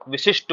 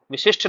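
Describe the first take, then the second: First: विशिष्ट with a plain unaspirated "t" ending; correct pronunciation. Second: विशिष्ट with an aspirated "shth" ending; wrong pronunciation. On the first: Teacher answers students with the right sound, correctly pronounced. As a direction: finish विशिष्ट on a crisp "ta". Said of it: "टा शब्द का उच्चारण करना है". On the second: Teacher rejects the common form, mispronounced. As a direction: puff air on the last consonant of विशिष्ट. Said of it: "नहीं होता है". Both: Shown as a demonstration.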